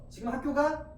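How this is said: It is said with a questioning tune. The speaker asks whether someone is going to school. "물어보죠"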